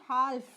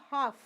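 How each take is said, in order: First: Half said "haalf" with the l sounded; mispronounced L. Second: Half said "haaf", no l; silent L. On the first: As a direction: pronounce the l before f in half. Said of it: "So it is not half". (half में ल बोलते हुए, "हाल्फ") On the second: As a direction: go from long aa straight to f in half. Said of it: "it is half". (half में ल चुप, "हाफ") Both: Shown as a demonstration.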